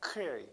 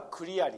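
First: The k joins the l directly, with no vowel. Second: A vowel is inserted after the first k sound. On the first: The speaker calls it right. "ほんときつくね" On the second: The speaker calls it wrong. "みんなクリアリーって言ってね、クだから、ここはクって言ってしまうと母音が入ってしまうから"

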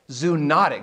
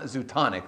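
First: The second syllable is pronounced 'not'. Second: The second syllable is pronounced 'ton'. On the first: The speaker calls it right. "Zoonotic, not zootonic" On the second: The speaker calls it wrong. "not zootonic. That might be a drink you get at a zoo"

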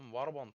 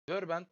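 First: The word has a simple, unforced pronunciation. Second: The word has an overdone, affected foreign pronunciation. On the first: This is how it should just be said. The speaker calls it right. "Warband lan" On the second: Some people say it this way, trying too hard. The speaker calls it wrong. "Kimisi Varban'da Wörbent. Bu kadar kasmayın"

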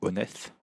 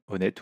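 First: The name ends with a th sound. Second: The name ends with a plain t sound.

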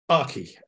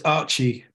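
First: The first syllable sounds like 'ark'. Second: The first syllable sounds like 'arch'. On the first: The name follows the word architecture. "we have architecture, we have Archimate, so you would assume Archi" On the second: The name follows a boy's name. "for me, it's Archi, ... it was a boy's name"

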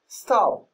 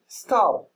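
No difference in how they are said.

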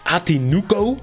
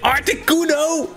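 First: The name is said without the r, as Atinuco. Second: The name is said with the r, as Articuno. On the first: The speaker calls it wrong. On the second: The speaker calls it right.

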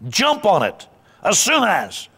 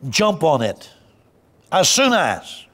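First: It is said with more energy and force. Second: It is said with less energy and force. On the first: The speaker calls it right. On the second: The speaker calls it wrong.

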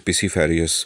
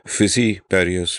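First: The word begins with a P sound. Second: The word begins with an F sound. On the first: The speaker calls it wrong. "which I always say it wrong. I say" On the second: The speaker calls it right. "I love the term you use"

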